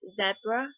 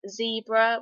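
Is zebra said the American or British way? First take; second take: British; American. First: The word is said the British way. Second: The word is said the American way.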